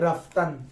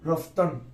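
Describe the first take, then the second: First: Both vowels are said as open 'a' sounds. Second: Both vowels are said as rounded 'o' sounds. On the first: This is the modern way of saying it. "তো এটা আধুনিক হলে রাফতান" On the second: This is the older way of saying it. "ধরো আগে এটাকে পরে তোলো রফতন"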